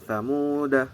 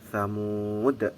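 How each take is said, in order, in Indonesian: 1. Kata ini diakhiri vokal pendek setelah d. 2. Kata ini berakhir dengan bunyi d mati. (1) "dibaca wasol atau lanjut, maka dalnya ini dibaca pendek" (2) "mewakofkannya adalah dengan mematikan huruf dal"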